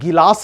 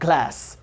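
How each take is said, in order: First: A vowel is inserted between g and l. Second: The g and l form a cluster. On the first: The speaker calls it wrong. "आज से आप इसको गिलास नहीं बोलेंगे" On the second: The speaker calls it right. "It's ग्लास"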